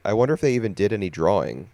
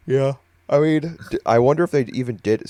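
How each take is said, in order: First: Said in the usual way. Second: Words stretched by a yawn; talking through a yawn. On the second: Real, not acted. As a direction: speak mid-yawn. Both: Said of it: "Sorry, I keep yawning".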